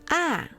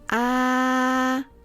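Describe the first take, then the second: First: The pitch drops sharply from high to low. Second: The pitch stays high and level. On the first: "Think of telling your dog to sit when you use the fourth tone" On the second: "The first tone is the flat tone"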